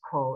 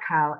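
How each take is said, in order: First: The word is said with an 'oh' vowel. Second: The word is said with an 'ah' vowel. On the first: The speaker calls it right. "it's coal" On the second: The speaker calls it wrong. "It's not cow"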